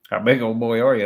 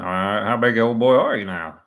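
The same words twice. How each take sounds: First: Put-on half-hearted go at a gruff old prank caller; Roy D Mercer impression. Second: Second try, a bit louder and raised, still mostly his own voice; Roy D Mercer impression. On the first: Commentator trying a Roy D Mercer bit for his viewers, lightly voiced. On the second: Commentator retrying the Roy D Mercer line for viewers, a hint of impression. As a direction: push the gruff prank-caller line harder. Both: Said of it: "I don't do a very good Roy D Mercer".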